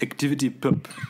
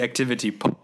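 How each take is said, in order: First: The name is said with a French accent. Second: The name is said with an English accent. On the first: "as the French would say" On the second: "I believe it's called the Activity Pop"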